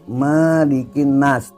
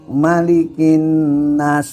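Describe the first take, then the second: First: The first vowel of maliki is drawn out long. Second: The first vowel of maliki is kept short. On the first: The speaker calls it wrong. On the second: The speaker calls it right.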